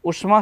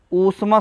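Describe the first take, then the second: First: उष्मा with a short "u" at the start; wrong short u. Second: ऊष्मा with a long "oo" at the start; correct long oo. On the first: Teacher showing students the wrong short vowel. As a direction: say उष्मा with a quick, short first u. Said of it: "उष्मा शब्द गलत है". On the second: Teacher giving students the correct long vowel. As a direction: say ऊष्मा as "oosh-ma", the first vowel held long. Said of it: "ऊष्मा शब्द सही होता है". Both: Shown as a demonstration.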